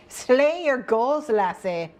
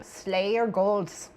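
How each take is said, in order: First: Piratey mock Scottish, higher and drawn out; slow, put-on Scottish pirate lilt; mock Scottish accent. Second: Slow attempt at Scottish drifting into Norwegian; vaguely Norwegian accent. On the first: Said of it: "I need to do that accent". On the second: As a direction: less piratey, oddly Norwegian accent, drawn out. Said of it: "less piratey this time and possibly more Norwegian".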